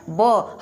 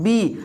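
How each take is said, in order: First: ब as b plus open 'aw'; sound of B. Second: बी with a long 'ee'; letter name B. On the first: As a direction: say ब as the letter's sound, not 'bee'. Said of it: "इसका sound जो है ब है". (ब को खुली अ ध्वनि के साथ बोलें) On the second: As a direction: say बी as the alphabet name, 'bee'. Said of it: "हम पढ़ते क्या है". (बी को लंबी ई के साथ बोलें) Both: Shown as a demonstration.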